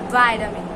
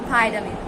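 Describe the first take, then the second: First: The first syllable has a long 'eye' sound. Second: The first syllable has a long 'eye' sound.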